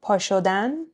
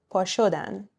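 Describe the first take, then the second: First: پا شدن with the final -dan stressed and rising; last-syllable stress. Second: پا شدن with sho stressed, the ending lighter. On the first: Teacher comparing side by side, infinitive پا شدن stressed at the end. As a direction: say پا شدن as pa shoDAN. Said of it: "let's compare them side by side". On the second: Teacher comparing side by side, they form پا شدن stressed on sho. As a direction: punch the middle, pa SHOdan, in پا شدن. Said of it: "we end up stressing sho". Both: Shown as a demonstration.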